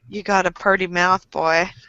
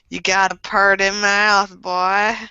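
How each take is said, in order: First: It is said in the speaker's normal voice. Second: It is said in a put-on accent.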